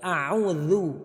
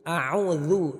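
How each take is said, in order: The two takes are said the same way.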